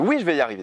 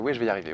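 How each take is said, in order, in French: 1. C'est dit avec force, avec une énergie élevée. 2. C'est dit calmement, avec une faible énergie. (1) "Ça monte, vous voyez, comme ça" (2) "Au début, c'est pas comme ça"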